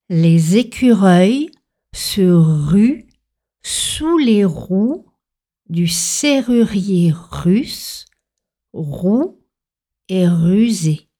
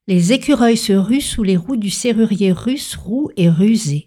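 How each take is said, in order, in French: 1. La phrase est dite lentement. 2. La phrase est dite vite, sans pause. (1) "Commencez lentement" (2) "passer à la vitesse supérieure sans faire de pause"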